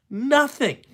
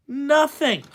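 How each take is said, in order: Both takes have the same delivery.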